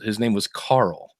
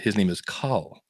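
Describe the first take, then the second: First: Carl is said with an American accent. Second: Carl is said with an Australian accent.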